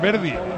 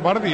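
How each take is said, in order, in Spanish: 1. La primera vocal suena como 'e'. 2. La primera vocal suena como 'a'. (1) "es Verdi" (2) "¿por qué pronuncia mal? No es Bardi"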